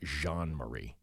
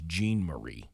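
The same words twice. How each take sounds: First: The name is said with French pronunciation. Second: The name is said with English pronunciation. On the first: The speaker calls it wrong. "I was trying to do like that French thing" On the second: The speaker calls it right. "I think it's Jean Marie"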